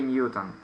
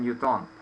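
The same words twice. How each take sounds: First: "Newton" stressed on the first syllable; English "Newton", weak second syllable; English pronunciation. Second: "Newton" stressed on the last syllable; Russian-style "Newton" with a full final o; Russian pronunciation. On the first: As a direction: say "Newton" as NYU-tn. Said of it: "We don't say Newton". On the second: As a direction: say "Newton" as nyu-TON. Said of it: "we say in Russian Newton". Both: Shown as a demonstration.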